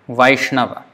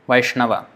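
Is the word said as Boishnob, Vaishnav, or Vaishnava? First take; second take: Vaishnava; Vaishnava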